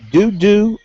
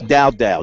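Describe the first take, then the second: First: The vowel sounds like 'oo' in 'do'. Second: The vowel sounds like 'ow' in 'how'. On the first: "I hope I got this right" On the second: "or maybe it's"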